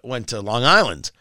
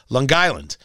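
First: It is said in a plain, neutral accent. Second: It is said in a strong local regional accent. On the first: The speaker calls it right. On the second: The speaker calls it wrong.

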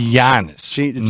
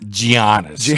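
First: The first G is silent. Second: The first G is sounded. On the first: The speaker calls it right. "the G is silent" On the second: The speaker calls it wrong. "Not Giannis"

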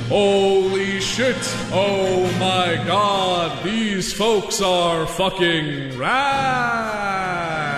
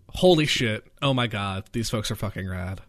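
First: It is said in a put-on Century style. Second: It is said in a plain voice.

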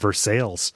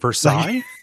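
First: It is said with the Ohio local pronunciation. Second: It is said with the French pronunciation. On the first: This refers to the town in Ohio. "in Ohio that town is called Versailles" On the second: This refers to the palace in France. "Palace at Versailles"

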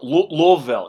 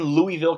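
First: It is said with a local American pronunciation. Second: It is said with a Canadian pronunciation. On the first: The speaker calls it right. "or Louisville, excuse me" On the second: The speaker calls it wrong. "I'm Canadian, so my pronunciation not 100% correct"

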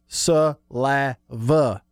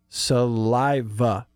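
First: The middle vowel sounds like 'ah'. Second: The middle vowel sounds like 'eye'. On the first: The speaker calls it wrong. "if you spell it the way Chris says it, it'd be S-U-L-A-V-A" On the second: The speaker calls it right. "Repeat after me"

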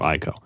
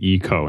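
First: The name is pronounced the English-style way. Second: The name is pronounced the Japanese way. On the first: The speaker calls it wrong. "instead of Ico" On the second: The speaker calls it right. "it's Ico instead of"

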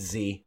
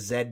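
First: The letter is said the American way, as zee. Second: The letter is said the British way, as zed.

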